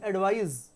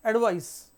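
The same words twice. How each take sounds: First: "एडवाइज" ending in a buzzing, voiced z; z sound. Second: "एडवाइस" ending in a sharp, voiceless s; s sound. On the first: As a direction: say "एडवाइज" with a z at the end, like the verb. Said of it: "इसका pronunciation होगा ज का". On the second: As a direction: say "एडवाइस" with a hissing s at the end, like the noun. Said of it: "इसका pronunciation होगा स का". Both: Shown as a demonstration.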